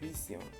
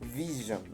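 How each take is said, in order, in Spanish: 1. La consonante del medio es un sonido s sordo. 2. La consonante del medio es un sonido zh sonoro. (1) "no es visión" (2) "es vision"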